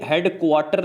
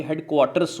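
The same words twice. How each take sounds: First: Said in the usual way. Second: headquarters with the ending s clearly sounded; stress the final s. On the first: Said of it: "नहीं होता". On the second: Shown as a demonstration. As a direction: land on the s of headquarters. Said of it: "ये headquarters होता है".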